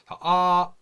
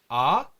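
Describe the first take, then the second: First: The pitch stays level from start to end. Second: The pitch rises sharply toward the end. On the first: "처음부터 끝까지 같은 음으로 가는 거예요" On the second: "갑자기 이렇게 위로 올라가는 발음"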